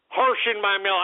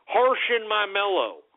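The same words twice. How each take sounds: First: Said in the usual way. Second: Mock hipster phrase. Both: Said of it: "what are these hipsters saying now?".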